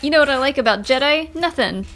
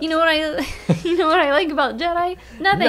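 First: It is read in a plain, natural voice. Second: It is said in a whiny put-on voice.

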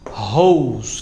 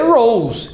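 First: The word starts with an H sound. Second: The word starts with an English R sound. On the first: It means a garden hose. The speaker calls it wrong. "só uma rose, que é mangueira" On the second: It means the flower. The speaker calls it right. "ela queria dizer rose"

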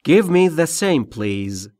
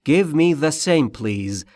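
No difference in how they are said.

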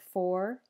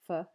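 First: The word has a full, clear vowel. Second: The word has a weak schwa vowel.

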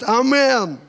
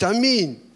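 First: The second vowel sounds like 'eh'. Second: The second vowel sounds like 'ee'. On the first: This is how it is said locally. "А у вас говорят «Амен»" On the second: This is how it is said in Ukraine. "В Украине говорят «Аминь»"

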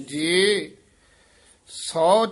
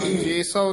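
First: A slight break comes after the first word. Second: The two words run together without a break. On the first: The speaker calls it right. "ਜੇ ਇੱਥੇ ਯਮਕ ਲਾ ਦੇਣੀ ਹੈ" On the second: The speaker calls it wrong. "ਜੇ ਸੌ ਨਹੀਂ ਕਹਿਣਾ"

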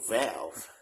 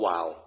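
First: The word is said with an English accent. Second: The word is said with a Thai accent. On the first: "แต่ภาษาอังกฤษคือ" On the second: "คนไทยออกเสียงว่าวาล์ว"

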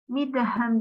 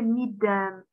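First: The verb is said in its full form. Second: The verb is said in a shortened form. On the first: This is the formal written language. "değil" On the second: This is everyday colloquial speech. "Böyle kısaltmalar var"

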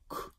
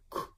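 First: The k is said as before an oe vowel. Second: The same.

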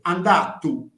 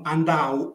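First: A voiceless t comes before the final vowel. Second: No consonant comes before the final vowel. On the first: This is the more conservative, older form. "le consonanti sorde alla fine di parola, nell'ultima sillaba, vengono ancora pronunciate" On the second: This is a less conservative form. "non andau"

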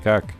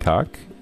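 First: The voice falls at the end. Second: The voice rises at the end, like a question.

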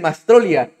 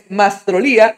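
First: The stress falls before the syllable 'lí'. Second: The stress falls on the syllable 'lí'. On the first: The speaker calls it wrong. "mucha gente, incluso colegas le dicen Mastrolía" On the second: The speaker calls it right. "Es Mastrolía, el mismo nos ha dicho, con acento"

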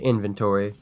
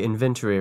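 First: It is said in an American accent. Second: It is said in a British accent.

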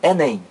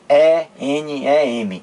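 First: It is read as one word in syllables. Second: Each letter is named separately. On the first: The speaker calls it right. "eu digo Enem" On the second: The speaker calls it wrong. "eu não digo E-N-E-M"

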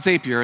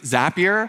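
First: The name does not rhyme with happier. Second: The name rhymes with happier. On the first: The speaker calls it wrong. "It's not Zapier" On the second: The speaker calls it right. "it rhymes with happier"

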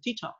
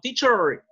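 First: The R is barely heard, British style. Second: The R is pronounced clearly.

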